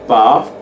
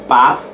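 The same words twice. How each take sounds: First: It is said in a British accent. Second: It is said with a short American ah. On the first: "in a British accent or to a Brit" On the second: "If it's an American, use your short ah"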